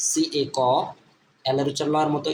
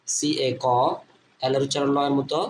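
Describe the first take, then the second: No difference in how they are said.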